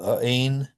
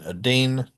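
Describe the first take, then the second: First: The middle T is a glottal stop. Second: The middle T is a quick flap. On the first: "no good" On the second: "no good"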